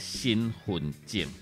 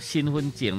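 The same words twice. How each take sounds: First: The middle syllable changes to the third tone. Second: The middle syllable gets the first-tone sandhi instead. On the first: "变调爱转第三声，念做身份证" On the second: "是将这个份当做第一声来变调"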